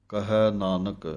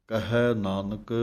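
No difference in how they are said.

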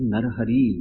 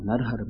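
First: The second word ends with an 'ee' vowel. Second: The second word ends without a final vowel. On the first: The speaker calls it right. "ਨਰ ਹਰੀ ਲਫ਼ਜ਼ ਹੈ ਦਰਅਸਲ" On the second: The speaker calls it wrong. "ਇਹ ਜਿਹੜਾ ਲਫ਼ਜ਼ ਆਪਾਂ ਨਰ ਹਰ ਪੜ੍ਹਦੇ ਹਾਂ"

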